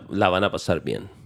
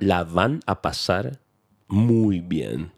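First: It is said at a normal speed. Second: It is said slowly and carefully.

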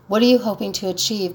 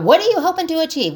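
First: It is said in a calm, genuinely curious tone. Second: It is said in an accusing, confrontational tone. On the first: The question sincerely seeks the other person's reasons. The speaker calls it right. "listen to my tone" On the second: The question is an attack on the other person. The speaker calls it wrong. "I'm not talking about"

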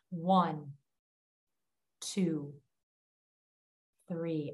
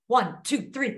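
First: The numbers are counted slowly and deliberately. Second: The numbers are counted quickly and casually. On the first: The count is used on purpose to calm down. The speaker calls it right. "a really intentional" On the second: The count is not doing its calming job. The speaker calls it wrong. "it's not like"

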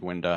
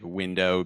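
First: The final vowel is reduced to an 'ah' sound. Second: The final vowel is a full 'oh' sound.

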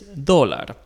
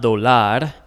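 First: The stress is on the first syllable. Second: The stress is on the second syllable. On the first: The speaker calls it right. "meaning that we put emphasis on that O" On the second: The speaker calls it wrong. "So it's not dólar"

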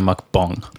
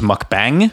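First: The second syllable has an 'o' vowel, like 'bong'. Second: The second syllable has an 'a' vowel, like 'bang'. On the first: The speaker calls it right. "but it's actually a" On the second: The speaker calls it wrong. "So I thought it was"

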